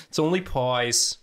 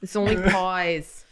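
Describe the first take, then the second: First: Put-on Long Island accent. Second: Slow, drawn-out Long Island "only pies"; mock Long Island drunk girl; Long Island accent. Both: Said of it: "thickest Long Island accent".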